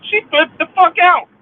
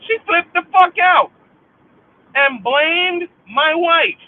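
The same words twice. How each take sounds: First: High, loud yell on fuck; angry shout. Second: High, loud, slowing on blamed my wife; angry shout. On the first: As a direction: let the fury out. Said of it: "let me say it how I really feel". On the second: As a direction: hammer each word in rage. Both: Real, not acted. Venting at the sister's betrayal, furious shout.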